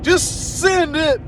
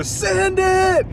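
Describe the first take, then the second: First: Higher, slow emphatic push; drawn-out go for it; urging him on. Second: Much higher crowd call; echoing crowd chant; mock crowd shout. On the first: Retold or imitated. Retold urging the driver on. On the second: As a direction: imitate the whole crowd yelling.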